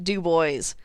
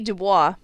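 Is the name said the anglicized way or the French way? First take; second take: anglicized; French. First: The name is said in an anglicized way. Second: The name is said in the French way. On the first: This is the local usage. The speaker calls it wrong. "French names that get mangled" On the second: This follows the original French. The speaker calls it right. "It should be Dubois"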